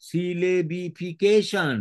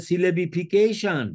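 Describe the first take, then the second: First: সিলেবিফিকেশন slowed right down, each syllable separate; syllable-by-syllable pronunciation. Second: Said in the usual way. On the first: Shown as a demonstration. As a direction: spell out সিলেবিফিকেশন by ear, one slow syllable at a time. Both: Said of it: "syllable ভাগ করে".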